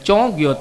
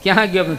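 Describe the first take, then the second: First: It is said in the Charotar dialect. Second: It is said in standard Gujarati.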